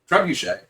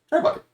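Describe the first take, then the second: First: The word ends with a soft 'shay' sound. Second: The word ends like the word 'bucket'.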